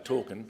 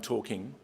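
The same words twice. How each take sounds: First: The final g sound is dropped. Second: The final g sound is pronounced. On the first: "talking without the G, it's got a, just an apostrophe, because it's sort of a bit cool to say" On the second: "rather than"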